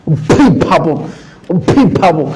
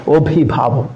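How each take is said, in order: First: অভিভাবক with every aspirate forced hard; stiff overpronounced. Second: Said in the usual way. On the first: Shown as a demonstration. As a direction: overdo অভিভাবক, stiff and artificial. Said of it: "এমন হয়ে যাচ্ছে কিনা ... হাস্যকর হয়ে যাবে". (অভিভাবক শব্দটি কৃত্রিম কঠিন উচ্চারণে) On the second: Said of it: "তাহলে তো এটা হাস্যকর হয়ে যাবে".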